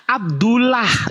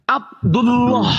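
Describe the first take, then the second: First: Abdullah with a thin light lah, slow and higher; wrong light reading. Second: Abdullah ending in a dark rounded loh, slow and higher; slow, thick loh in Abdullah; heavy tafkhim reading. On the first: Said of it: "Ini bukan". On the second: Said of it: "itu yang betul". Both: Shown as a demonstration.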